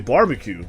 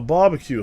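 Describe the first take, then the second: First: The word is said with an American accent. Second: The word is said with a British accent. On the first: The speaker calls it right. "like a normal human being" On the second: The speaker calls it wrong. "when the hell did I start saying barbecue like a British person?"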